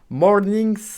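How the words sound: It is said with English pronunciation. "que tu prononces en anglais"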